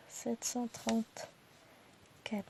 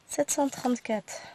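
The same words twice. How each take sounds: First: Drawn-out murmured repeat of the number; careful slow recount, almost to yourself; slow soft repeat. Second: Said in the usual way. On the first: Real, not acted. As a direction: say it again slowly under your breath. Repeats number slowly to herself.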